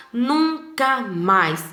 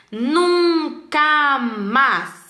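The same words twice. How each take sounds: First: "nunca mais" spoken slowly, leaning on "nunca"; slow emphatic "never again". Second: "Nunca mais" drawn out syllable by syllable, higher and stronger; slow emphatic "never again". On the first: Teacher to the class, quoting the comic slowly with emphasis. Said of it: "para destacar que é nunca mais mesmo". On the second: Teacher reading the comic, stressing "Nunca mais" slowly. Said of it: "ele usou aí três balões só pra "nunca mais". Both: Shown as a demonstration.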